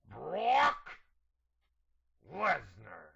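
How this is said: It is said in a put-on imitation voice.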